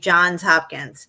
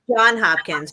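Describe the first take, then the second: First: The first name ends with an s sound. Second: The first name has no s sound. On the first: This is how other people say it. "they say Johns Hopkins" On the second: This is how the speaker always thought it went. "I always thought it was John Hopkins"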